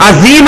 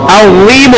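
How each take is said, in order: First: "عظیم" as azeem, with a whistling z; wrong plain z. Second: "عظیم" with a heavy, whistle-free dh; emphatic Arabic z in "عظیم"; thick dh. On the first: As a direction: mispronounce "عظیم" with a thin, buzzing z. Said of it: "وہ زید دوسری ہو جائے گی". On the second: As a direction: say "عظیم" as adheem, mouth rounded. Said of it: "عظیم ہوگا". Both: Shown as a demonstration.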